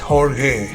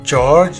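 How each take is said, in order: First: It is said with Portuguese sounds. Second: It is said like the English name George. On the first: The speaker calls it right. "it's Portuguese uh, spelling pronunciation" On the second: The speaker calls it wrong. "it's not George"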